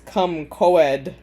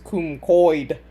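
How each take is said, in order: First: The second syllable sounds like two separate vowels. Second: The second syllable has one gliding 'oi' vowel. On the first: The speaker calls it wrong. "I was totally saying it like the character Leo was" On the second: The speaker calls it right. "apparently it's cum coid"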